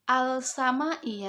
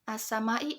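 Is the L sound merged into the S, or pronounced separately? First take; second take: pronounced; merged. First: The L is pronounced clearly before the S. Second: The L merges into a doubled S sound. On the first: The speaker calls it wrong. "Bukan dibaca al-sama'i ya, bukan" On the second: The speaker calls it right. "as-sama'i alif lam bertemu dengan sin"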